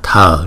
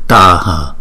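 First: It is said as one single syllable. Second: It is said as two separate syllables. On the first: The speaker calls it wrong. "thường thường mình đọc là thờ" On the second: The speaker calls it right. "thực ra trong tiếng Phạn là tờ hờ"

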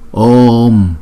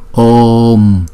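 First: The vowel is held long before closing. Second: The vowel is held long before closing.

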